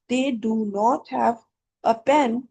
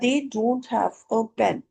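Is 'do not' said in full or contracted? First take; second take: full; contracted. First: Do and not are said as two words. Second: Do and not merge into one syllable. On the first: "ये डू और नॉट है" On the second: "डोंट जो है ये इसकी contraction है"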